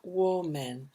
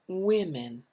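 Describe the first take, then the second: First: The first vowel is not an 'i' sound. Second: Both vowels are 'i' sounds. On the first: The speaker calls it wrong. "Notice this is not women" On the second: The speaker calls it right. "but women. Two I sounds"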